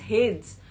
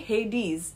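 First: The final e is silent. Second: The final e is pronounced. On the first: The speaker calls it wrong. "it looks as if it's Hades" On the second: The speaker calls it right. "but it's actually Hades, it's pronounced as Hades"

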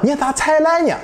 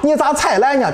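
First: Spoken with rising and high-level Xuzhou-area tones. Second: Spoken with central Henan dialect tones.

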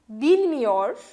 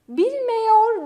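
First: The vowel before -yor is a narrow I. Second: The vowel before -yor is a wide E. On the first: The speaker calls it right. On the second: The speaker calls it wrong.

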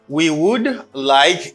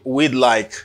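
First: Both words are said fully and separately. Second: The two words merge into one short syllable. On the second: "you say, we'd like"

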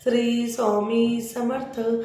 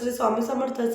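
First: The phrase is recited slowly and calmly. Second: The phrase is recited quickly. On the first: The speaker calls it right. "हळू आवाजात आणि मन शांत ठेवून" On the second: The speaker calls it wrong. "तुम्हाला fast नको करायला"

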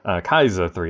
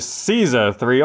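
First: The name begins with a K sound. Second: The name begins with an S sound.

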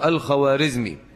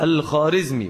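First: The name is said with a w sound. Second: The name is said without a w sound. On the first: This is how the name is written. "بالواو" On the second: This is how the name is spoken. "هذه الواو تسمى في الفارسية بالواو المعدولة"

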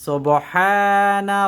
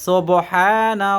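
No difference in how they are said.

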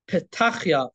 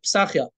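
First: The second consonant is a T sound. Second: The second consonant is an S sound.

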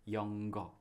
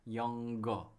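The two takes are said the same way.

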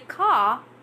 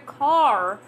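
First: The final R sound is dropped. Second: The final R sound is pronounced. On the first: This is how British speakers say it. "all the British people say car" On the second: This is the version the listener expects. "you're waiting to hear car"

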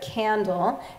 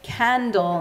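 First: It is said with a standard American pronunciation. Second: It is said with a distinctive community pronunciation. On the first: "instead of candle" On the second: "distinct English pronunciation, like saying candle"

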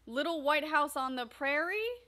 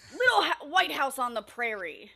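First: The voice rises, like an unsure question. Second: The voice booms, like an excited announcement. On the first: The speaker sounds unsure, as if asking. "Put question marks" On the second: The speaker is announcing it with enthusiasm. "Exclamation mark. Can you read it that way?"

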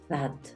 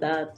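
First: It begins with a soft, airy th sound. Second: It begins with a hard d sound. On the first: The speaker calls it right. "realmente el fonema de la TH es como una S" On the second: The speaker calls it wrong. "Muchas veces nosotros solamente decimos la D"

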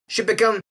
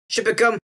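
No difference in how they are said.

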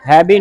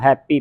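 First: The middle consonant is a plain b sound. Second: The middle consonant is a plain p sound. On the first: "ਹੈਬੀ ਨਹੀਂ ਕਹਿਣਾ" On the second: "ਹੈਪੀ ਪੱਪੇ ਦੀ ਆਵਾਜ਼ ਨਿਕਲੀ ਪਈ ਨਾ"

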